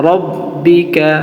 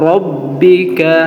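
Both takes have the same delivery.

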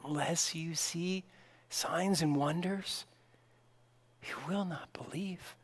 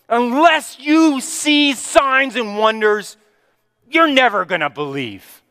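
First: It sounds gentle and compassionate. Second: It sounds like a rebuke, with a raised voice.

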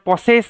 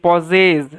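First: The middle consonant is an s sound. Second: The middle consonant is a z sound. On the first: The speaker calls it wrong. "এটার পসেস এরকম নয়" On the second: The speaker calls it right. "এটার উচ্চারণটা কিন্তু এই যে পজেস"

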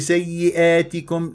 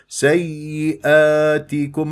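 First: The long a vowel is tilted toward e. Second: The long a vowel stays fully open. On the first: The speaker calls it wrong. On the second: The speaker calls it right.

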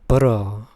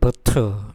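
First: It is said in an American accent. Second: It is said in a British accent. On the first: "미국식 발음 버러" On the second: "영국식 발음 버터"

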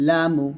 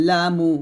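No difference in how they are said.

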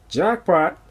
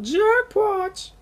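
First: It is said in his own normal voice. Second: It is said imitating Herbert the Pervert's voice.

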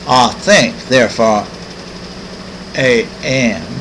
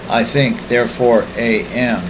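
First: It is said in a Southern accent. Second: It is said in a neutral accent.

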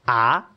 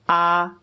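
First: The pitch rises toward the end. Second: The pitch stays level and steady throughout. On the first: "The second tone is rising, so it's almost like you're asking a question" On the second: "So that's what's known as the first tone"

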